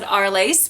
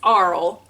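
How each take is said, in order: First: The name is said with an English pronunciation. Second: The name is said with a non-English pronunciation. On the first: "we English would probably pronounce it Arles" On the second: "I actually asked her how to pronounce it, and it's Arles"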